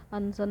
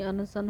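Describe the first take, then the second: First: अनशन with the inner "a" dropped; colloquial अनशन. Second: अनशन spoken out syllable by syllable; corrected अनशन. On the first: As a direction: say अनशन as "an-san", two syllables. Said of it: "नहीं". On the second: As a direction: say अनशन as "a-na-san", three syllables. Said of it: "नहीं अनशन होता है". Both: Shown as a demonstration.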